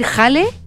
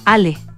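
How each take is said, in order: First: It is said in a Chilean accent. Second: It is said in a Venezuelan accent.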